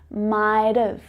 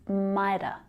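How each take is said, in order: First: It ends with a clear v sound. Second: It ends in a weak schwa with no v. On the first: "then we hear that v sound" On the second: "The ending is just a schwa"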